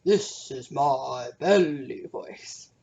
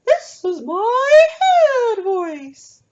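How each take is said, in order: First: Low, very slow voice from the belly. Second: Very high, slow and loud; head voice. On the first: Teacher shows the class her low belly voice. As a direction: drop the pitch right down and draw it out. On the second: Teacher shows the class her high head voice. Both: Shown as a demonstration. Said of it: "Can you say".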